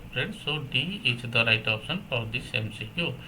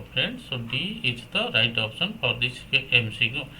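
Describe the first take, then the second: No difference in how they are said.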